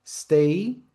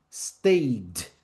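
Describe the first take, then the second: First: Said in the usual way. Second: "stayed" as one syllable with a final d; "stayed" with no vowel before the d; no added syllable. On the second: Shown as a demonstration. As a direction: close "stayed" on a d, falling. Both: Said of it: "Não acrescenta-se sílaba".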